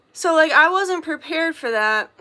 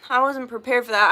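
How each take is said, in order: First: A little higher and louder, pressing the point; emphatic first take. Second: Sigh, then the same words said resigned; sighing repeat. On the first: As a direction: state it firmly, as news to the listener. Repeats line, then sighs. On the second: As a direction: let it drop, weary and resigned. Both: Real, not acted.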